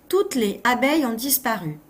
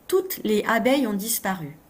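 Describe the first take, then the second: Both takes have the same delivery.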